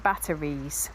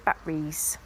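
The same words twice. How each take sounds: First: It is said in a standard English accent. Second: It is said in a Norfolk accent. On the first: "rather than batteries" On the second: "you may hear me say batteries"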